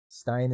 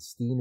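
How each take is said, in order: First: The vowel sounds like 'eye'. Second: The vowel sounds like 'ee'. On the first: The speaker calls it right. "Stein is the correct pronunciation" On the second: The speaker calls it wrong. "Steen is wrong"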